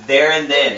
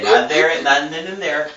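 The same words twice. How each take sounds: First: Rereading the line, leaning on There; stress on THERE. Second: Not THERE and, not THEN and there, each word leaned on; correcting the word order with emphasis; contrastive stress. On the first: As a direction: hit There and let then fall. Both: Shown as a demonstration.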